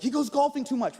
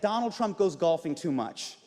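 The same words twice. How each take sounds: First: Higher-pitched imitation of a complainer; mock whine of complaint; mock media complaint. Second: Said in the usual way. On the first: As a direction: mimic their griping, pitched up. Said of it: "You guys are always like". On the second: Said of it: "a lot of people in the media say".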